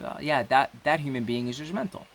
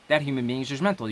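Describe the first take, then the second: First: It is said warmly, with a smile. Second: It is said flatly, with total stillness.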